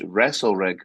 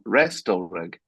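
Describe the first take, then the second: First: The T sound is left out. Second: The T sound is clearly pronounced. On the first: The speaker calls it right. "The T is silent" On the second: The speaker calls it wrong. "not Restal Rig"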